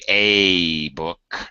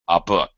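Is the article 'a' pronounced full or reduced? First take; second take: full; reduced. First: The article is a full, long 'ay' vowel. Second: The article is a short, reduced vowel. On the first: The speaker calls it wrong. "We don't normally say a book" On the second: The speaker calls it right. "I say a, a book"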